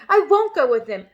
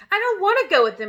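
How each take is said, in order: First: Loud determined shout. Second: Loud high shout. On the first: Matilda refusing her parents, loud shout. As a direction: refuse with force. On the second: Matilda refusing to leave, loud shout. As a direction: shout it defiantly. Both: A narrator's reading. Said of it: "Matilda shouted".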